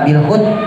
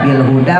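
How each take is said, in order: First: The final vowel is dropped, ending on a consonant. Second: The word ends with a long vowel sound. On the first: The speaker calls it wrong. "Kok nggak bil hud?" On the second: The speaker calls it right. "dibacanya huda"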